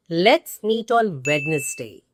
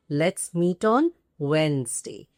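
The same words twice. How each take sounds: First: "Wednesday" with the first d sounded, WED-nes-day; three beats in "Wednesday", as spelt; incorrect pronunciation. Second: "Wednesday" as two beats, WENZ-day; correct pronunciation. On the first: Teacher modelling a common mistake, spelt-out "Wednesday". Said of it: "completely incorrect". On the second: Teacher repeating the sentence corrected, two-beat "Wednesday". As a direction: keep the first d silent in "Wednesday". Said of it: "The correct pronunciation is". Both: Shown as a demonstration.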